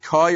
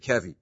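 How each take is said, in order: First: The word is said as one syllable, koy. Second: The word is said as two syllables, ke-vee. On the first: "Is it Koi" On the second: "or is it Kevi?"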